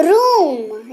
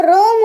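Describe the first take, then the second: First: "रूम" with the oo drawn out; stressed long oo. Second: "रोम" like roam, long pure o; wrong long o. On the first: Teacher demonstrating "रूम" with force on long oo. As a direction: press and stretch the ऊ in "रूम". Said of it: "जोर डल रहा है". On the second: Teacher showing what room would become, "रोम" with long o. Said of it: "सिर्फ ओ होता तो रोम हो जाता". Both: Shown as a demonstration.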